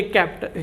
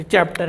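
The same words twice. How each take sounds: First: कैप्टर with a hard K at the start; mispronounced chapter. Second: Said in the usual way. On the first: Shown as a demonstration. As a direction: say कैप्टर, opening on K instead of CH. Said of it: "इसको कैप्टर नहीं बोलते". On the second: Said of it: "तुम चे से बोलते हो".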